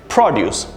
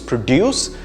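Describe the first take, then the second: First: The stress is on the first syllable. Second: The stress is on the second syllable. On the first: It is the noun meaning food products. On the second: It is the verb meaning to create or make something.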